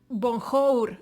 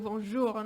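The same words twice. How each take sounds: First: It is said with Spanish sounds, as spelled. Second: It is said with native French sounds. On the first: The speaker calls it wrong. "no digas bonjour" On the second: The speaker calls it right. "intenta pues pronunciarlo de la manera como se pronuncia"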